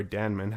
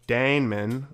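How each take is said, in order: First: "Danman" said as DAN-man, short A; alternative pronunciation. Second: "Danman" said as DANE-man, long A; first pronunciation. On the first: Host offering listeners another option, "Danman" said DAN-man. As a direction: say "Danman" with the vowel of "cat". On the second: Host offering listeners the word to type, "Danman" said DANE-man. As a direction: say "Danman" with the vowel of "day". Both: Shown as a demonstration. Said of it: "however you wanna say it".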